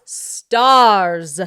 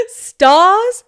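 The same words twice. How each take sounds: First: "Stars." firm, falling, loud; settled "Stars.". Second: "Stars?" much higher and louder, rising, the r unsure; questioning "Stars?". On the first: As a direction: land the word "Stars." with a final fall. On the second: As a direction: test the word "Stars?" aloud, puzzled. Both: Real, not acted.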